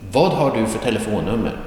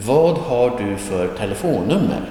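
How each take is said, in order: First: Fast, connected question; quicker natural delivery. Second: Careful model reading. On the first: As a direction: run the words together at conversational speed. Same question repeated at natural speed. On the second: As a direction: spell the question out carefully, word by word. Teacher models the question, then repeats faster. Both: Shown as a demonstration.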